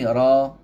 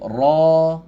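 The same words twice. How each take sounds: First: The r sound is light and thin. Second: The r sound is heavy and thick. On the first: "dah tentulah huruf tu kita baca dia nipis" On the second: "Bila datang baris pada dia baru kita sebut ra"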